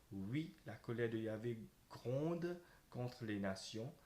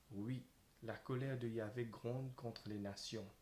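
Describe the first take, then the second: No difference in how they are said.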